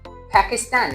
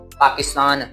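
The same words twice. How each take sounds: First: The word is said with an English accent. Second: The word is said with an Urdu accent. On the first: The speaker calls it right. "जब अंग्रेज बोलेंगे वो बोलेंगे पाकिस्तान" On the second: The speaker calls it wrong. "पाकिस्तान तो उर्दू में"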